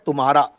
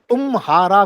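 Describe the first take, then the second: First: The m sound joins the following ha syllable. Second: The m sound closes the first syllable, tum. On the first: The speaker calls it right. "Almost it is like तुम्हारा" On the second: The speaker calls it wrong. "उसमें तुम हारा कोई नहीं बोलता है"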